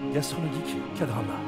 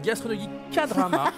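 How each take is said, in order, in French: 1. C'est dit avec une voix de présentateur forcée. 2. C'est dit d'une voix de parole ordinaire.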